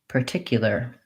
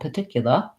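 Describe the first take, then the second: First: The r sounds are pronounced, American style. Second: The r sounds are dropped, British style.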